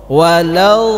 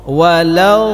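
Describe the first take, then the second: Both takes have the same delivery.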